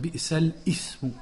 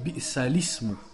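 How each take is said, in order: First: A glottal break comes before 'ismu'. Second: 'ismu' is linked smoothly without a break. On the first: The speaker calls it wrong. "Ça, c'est l'erreur" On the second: The speaker calls it right. "On fait pas i, on fait l'ismu"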